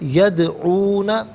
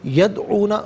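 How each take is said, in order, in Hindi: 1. 'd' आवाज़ उछलती है, हल्की गूंज के साथ। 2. 'd' आवाज़ सपाट है, कोई गूंज नहीं। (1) "यहाँ कलकला होगा यानी आवाज़ लौटती भी महसूस होगी" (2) "यदऊना गलत है"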